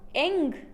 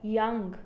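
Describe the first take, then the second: First: The word starts without a Y sound. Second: The word starts with a clear Y sound. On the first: The speaker calls it wrong. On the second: The speaker calls it right.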